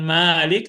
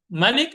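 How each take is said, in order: First: The first vowel is said long. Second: The first vowel is said short. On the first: It means the one who owns. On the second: It means ruler or king.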